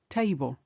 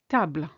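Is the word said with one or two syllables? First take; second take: two; one. First: The word is said as two syllables. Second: The word is said as one syllable. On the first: "In English, two" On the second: "There's only one"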